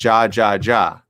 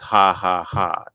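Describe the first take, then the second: First: Each syllable begins with an English J sound. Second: Each syllable begins with an H sound. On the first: The speaker calls it wrong. "I thought it was ja ja ja" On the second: The speaker calls it right. "not knowing it was ha ha ha"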